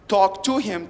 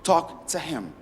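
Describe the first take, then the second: First: The word "to" keeps its full vowel. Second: The vowel in "to" is weakened to almost "t". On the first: The speaker calls it wrong. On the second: The speaker calls it right. "turns to"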